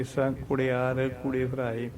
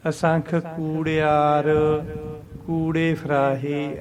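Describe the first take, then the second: First: ਕੁੜਿਆਰ said with a short u, hurried, a bit quieter; common mistake. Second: Slow, long ਕੂ in ਕੂੜਿਆਰ with a pause before ਕੂੜੇ ਫਰਾਹੇ; correct long vowel. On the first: Teacher imitates the wrong short vowel. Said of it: "ਐਂ ਬੋਲਦੇ ਅਸੀਂ". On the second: Teacher gives the correct long ਕੂੜਿਆਰ. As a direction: lengthen the ਕੂ and rest after it. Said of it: "ਐਂ ਬੋਲਣਾ". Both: Shown as a demonstration.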